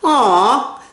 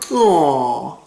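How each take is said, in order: First: It sounds short, plain and disappointed. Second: It sounds deeper and condescending. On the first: Something is too bad. "That means like too bad" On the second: The listener is being pitied. "A little deeper, and it's more condescending"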